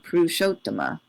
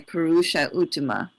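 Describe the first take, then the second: First: The a and u merge into one o sound. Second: The two words are kept apart, vowels unmerged. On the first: This applies the formal sound-joining rule. "They wouldn't say Purushottama, which is the sandhi" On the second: This is how it is said in ordinary speech. "So they would say Purusha Uttama"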